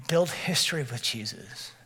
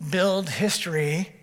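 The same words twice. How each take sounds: First: Said in the usual way. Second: Slow, Build history drawn out with weight on Build; stress on Build. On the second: Shown as a demonstration. Preacher repeating Build history to the congregation slowly.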